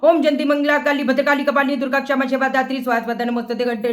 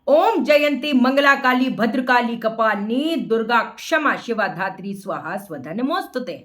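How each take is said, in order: First: It is rushed through quickly without care. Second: It is recited slowly with careful pronunciation. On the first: The recitation is done just to get it over with. The speaker calls it wrong. "जल्दी से ... निपटाने के लिए" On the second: The recitation is done properly. The speaker calls it right. "मैंने अच्छे से किया ना"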